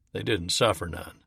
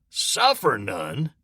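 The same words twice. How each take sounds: First: Said in the usual way. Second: "Suffer none?" slowly, in a changed voice, rising; incredulous echo. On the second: Acted. Morris throws "Suffer none?" back at Lewis in disbelief. Another private echoes incredulously.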